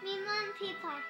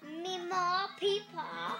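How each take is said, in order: First: It is said in a plain accent. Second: It is said in a southern accent.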